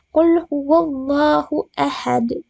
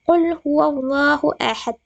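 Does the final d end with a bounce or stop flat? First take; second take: bounce; flat. First: The final d bounces with a clear echo. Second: The final d stops flat without a bounce. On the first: The speaker calls it right. "karena dia termasuk qalqalah kubra" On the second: The speaker calls it wrong. "akan salah jika kita mengatakan bahwa"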